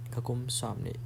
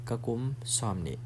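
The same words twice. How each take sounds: The two takes are said the same way.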